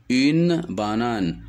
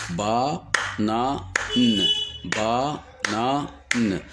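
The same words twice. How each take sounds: First: Said in the usual way. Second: "banane" split into ba, na, ne with pauses; syllable by syllable. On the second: Shown as a demonstration. Teacher demonstrating three syllables, syllable by syllable. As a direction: clap out each syllable of "banane" vocally. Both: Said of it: "Le mot banane contient trois syllabes".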